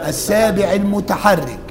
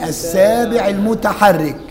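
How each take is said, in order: The two takes are said the same way.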